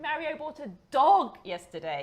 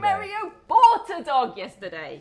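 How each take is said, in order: First: The word dog carries the main stress. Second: The word bought carries the main stress. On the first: It was a dog, not a frog. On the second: He bought it, he did not steal it.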